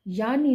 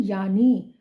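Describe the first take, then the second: First: यानी ending in a short इ, as yaani; wrong short vowel. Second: यानी loudly, ending in a long ई; correct long vowel. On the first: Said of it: "यानी नहीं". (यानी का अंत छोटी 'इ' से) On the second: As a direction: stretch the last vowel of यानी. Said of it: "बड़ी ई वाले". (यानी का अंत लंबी 'ई' से) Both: Shown as a demonstration.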